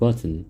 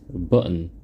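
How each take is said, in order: First: The second syllable has a clear vowel. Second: The second syllable is only an n sound. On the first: "with a vowel in the second syllable" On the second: "with the syllable n"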